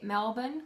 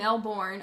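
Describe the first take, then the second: First: The R sound is mostly dropped. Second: The R sound is clearly pronounced. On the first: The speaker calls it right. "they don't say the R too much" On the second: The speaker calls it wrong. "which is really bad because that's not how you say it"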